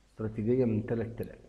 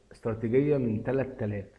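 No difference in how they are said.

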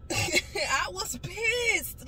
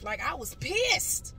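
First: High, slow, laughing through it. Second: Said in the usual way. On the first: Real, not acted. Retelling how mad she was, laughing. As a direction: laugh as you admit it. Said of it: "laughs while repeating". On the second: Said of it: "first take".

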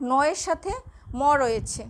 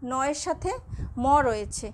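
Both takes have the same delivery.

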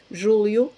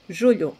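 First: "Julio" as Portuguese "júlio", l plus i glide. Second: "Julio" as Portuguese "julho", palatal lh, falling. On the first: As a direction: say "Julio" as ZHOO-lyoo, tongue-tip l. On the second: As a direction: say "Julio" as ZHOO-lhoo, squashed tongue. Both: Shown as a demonstration. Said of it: "cómo pronunciar las dos".

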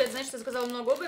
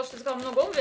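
First: Fast repeat stressing обуви; rushed repeat. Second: Said in the usual way. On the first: Shown as a demonstration. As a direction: rattle it off, rising on обуви.

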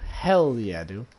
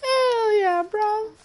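First: Said in the usual way. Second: Very high, loud celebratory squeal; falsetto cheer. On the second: Pretend. Player celebrating his own accent, high falsetto cheer.

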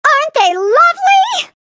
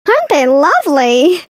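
First: High voice landing on "lovely" with a fall; "lovely" stressed, higher, falling tune. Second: Low voice leaning hard on "Aren't"; "Aren't" stressed, lower, rising tune. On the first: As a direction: lift up and hit "lovely", falling. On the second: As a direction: punch "Aren't", let "lovely" rise. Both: Acted. Same line recorded twice.

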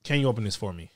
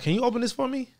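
First: Lower, stress on "Can"; blunt rude request; rude ask. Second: Higher, polite question; sweet polite request; polite ask. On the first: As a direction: demand it bluntly. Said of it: "some sound rude". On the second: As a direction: ask nicely. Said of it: "some sound rude, some sound polite". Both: Shown as a demonstration.

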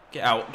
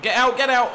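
First: Said in the usual way. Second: High, loud yells of get out; will the shot in at full voice; urgent shout. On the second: Real, not acted. Gamer yelling at his shot to go in, shouting.

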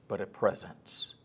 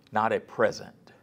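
First: "presence" dropped soft and slowed as the answer; stress on presence. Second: "present" said plainly as the word being corrected; "present" set up as the wrong word; contrast present. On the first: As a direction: lean softly and slowly into "presence". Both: Shown as a demonstration.

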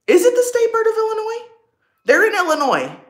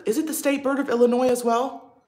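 First: Much higher, louder and quicker, thrilled; excited surprise. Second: Said in the usual way. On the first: Real, not acted. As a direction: fire the question off in delighted disbelief. Excited repeat of her question.

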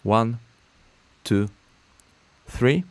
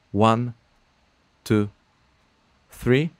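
Both takes have the same delivery.

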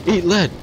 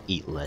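First: High, loud hammed-up war cry; battle cry. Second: Low, soft repeat to himself; amused mutter. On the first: Gamer shouting at the enemy while firing, hammed-up battle cry. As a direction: bellow it like an action hero. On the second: Acted. Gamer repeating his own battle cry to himself, amused mutter. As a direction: say it again softly, amused. Quiet repeat after the laugh.

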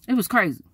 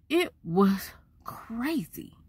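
First: Said in the usual way. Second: Whisper. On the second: Real, not acted. Hushed aside about the drive.

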